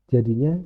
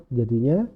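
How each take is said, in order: Both takes have the same delivery.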